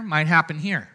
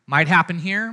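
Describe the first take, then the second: First: "might happen here" settling down at the end; falling tune. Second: "Might happen here" with a rising, hopeful lift; "Might happen here" rising up at the end; rising tune. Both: Shown as a demonstration.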